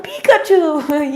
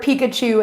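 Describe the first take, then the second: First: Slow, higher, dim-witted parroting of the word; mocking a copycat who just echoes; dopey echo. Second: Said in the usual way. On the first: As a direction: repeat "Pikachu" back like a clueless parrot, drawn out and pitched up. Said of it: "they're like". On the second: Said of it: "you say the word Pikachu".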